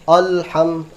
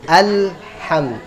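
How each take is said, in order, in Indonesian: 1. Vokal pertama tebal, seperti o. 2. Vokal pertama tipis, a yang jelas. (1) "tebal o" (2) "dia tipiskan a"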